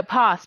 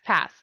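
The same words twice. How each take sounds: First: "pos" with a long British ah vowel; English-accented pass. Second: "pass" with a short American a, as in cat; clarified pass. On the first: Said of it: "sometimes English accent kills it". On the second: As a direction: correct it to "pass" with the flat vowel of cat. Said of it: "P A S S". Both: Shown as a demonstration.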